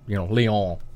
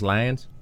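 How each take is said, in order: First: The name is said the French way. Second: The name is said the English way. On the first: This is how traditional Catholics say the name. "Only the traditional Catholics pronounce it" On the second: This is how most people say the name. "Everybody else says Lyons"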